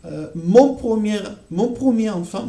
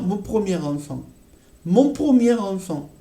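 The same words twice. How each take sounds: First: "mon premier enfant" with the r not yet linked; "premier enfant" said with no r carried over; liaison demo. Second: "premier enfant" with the r linked into enfant; liaison demo. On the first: Teacher setting up a liaison demo: "mon premier enfant". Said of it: "Ici, c'est pareil". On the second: Teacher showing students the r linking into "enfant". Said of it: "on entend ce son, r". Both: Shown as a demonstration.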